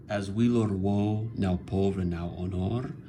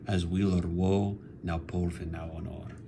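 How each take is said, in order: First: "As weal or woe", pause, "now pauvre", pause, "now honor"; caesura pauses. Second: "as weal or woe", pause, "now pauvre", pause, "now honor", sinking to softer; audible caesura. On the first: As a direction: break the verse at each comma. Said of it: "You can hear that pause". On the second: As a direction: make the comma pauses audible, trailing off softer. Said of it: "but you can hear it". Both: Shown as a demonstration.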